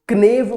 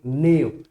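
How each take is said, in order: First: The word starts with a k sound. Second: The word starts with an n sound. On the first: The speaker calls it wrong. "इसको क्नेव pronounce नहीं करेंगे" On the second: The speaker calls it right. "ये silent है"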